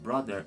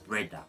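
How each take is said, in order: First: The word has a th sound and er ending. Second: The word has a d sound and ah ending. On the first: "Instead of brother" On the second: "it would be pronounced brother or breda in certain cases"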